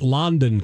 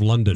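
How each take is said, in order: First: It is said the local Kentucky way. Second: It is said the usual, standard way. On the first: "They pronounce it London" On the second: "instead of London"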